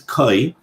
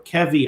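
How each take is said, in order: First: No v sound follows the k. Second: A short vowel and v follow the k. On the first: This is the proper pronunciation. "I think the proper pronunciation is Koi" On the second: This is how some people say it. "Some people pronounce this"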